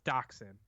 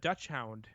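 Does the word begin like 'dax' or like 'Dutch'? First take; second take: dax; Dutch. First: The word is said as 'dax-hund'. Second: The word is said as 'Dutch hound'. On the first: The speaker calls it right. "But no, it's dachshund" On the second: The speaker calls it wrong. "I kept telling Lori, I'm like, oh, I want a Dutch"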